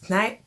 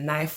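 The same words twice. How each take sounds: First: The initial k is sounded. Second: The initial k is silent. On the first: This is how the speaker misread the word. The speaker calls it wrong. "I literally pronounce words" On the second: This is how the word is really pronounced. The speaker calls it right. "I used to think"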